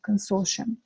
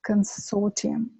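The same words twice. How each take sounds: First: The ending is said as 'shum'. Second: The ending is said with a separate 't' sound.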